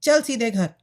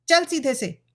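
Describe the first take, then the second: First: Louder, mildly angry command; scolding order. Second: Higher, commanding scold; harsh old woman. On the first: Mother sends daughter home, scolding. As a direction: snap out a mother's order, falling at the end. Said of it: "उसकी मां ने आकर डांटा". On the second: Old mother orders daughter to move, harsh. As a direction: order her along harshly, pitch raised. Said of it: "बुढ़िया कर्कश स्वर में बोली". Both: A narrator's reading.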